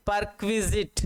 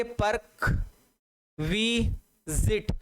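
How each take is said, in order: First: Said in the usual way. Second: परक्विजिट broken into पर्क, वि, ज़िट with long gaps; slow, separated sounding-out of परक्विजिट; syllable by syllable. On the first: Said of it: "इसका right pronounce होता है". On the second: Shown as a demonstration. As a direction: teach परक्विजिट slowly, one piece at a time. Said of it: "इसको क्या बोलेंगे?".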